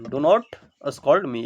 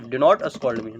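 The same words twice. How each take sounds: First: Each word drawn out slowly for students; slow dictation. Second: Said in the usual way. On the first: Shown as a demonstration. (बहुत धीरे, शब्द-शब्द करके) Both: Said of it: "मुझे मत डांटो".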